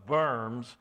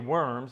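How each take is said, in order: First: The word begins with a V sound. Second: The word begins with a W sound. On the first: The speaker calls it right. "the W is pronounced as a V" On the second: The speaker calls it wrong. "We don't say worms"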